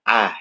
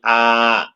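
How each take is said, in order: First: The second glottal stop is softened, half-pronounced. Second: The second glottal stop becomes a long vowel. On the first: This is the reading reported from Baghdad. "bacaannya tasjil" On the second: This is the reading reported from Egypt. "diganti alif, artinya dibaca ibdal"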